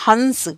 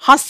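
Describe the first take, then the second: First: A full n sound follows the vowel. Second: The vowel itself is nasalized, without n. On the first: It names a bird. "यहां मैंने अनुस्वार लगाया तो ये बन गया हंस" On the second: It names the act of laughing. "चंद्र बिंदु लगाया यानी कि अनुनासिका का प्रयोग किया"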